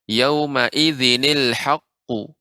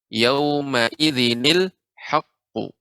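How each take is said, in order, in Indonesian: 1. Kedua kata disambung dengan bunyi ni penghubung. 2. Kedua kata disambung dengan bunyi ni penghubung.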